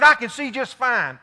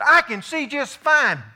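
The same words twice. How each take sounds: First: A little louder, cocky and sure; imitating Howard, louder. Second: Higher, slow, insistent; imitating Howard, slower. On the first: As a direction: brush off the worry, a little louder. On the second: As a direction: drag out the cocky reassurance. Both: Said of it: "He said".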